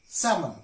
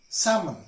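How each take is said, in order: No difference in how they are said.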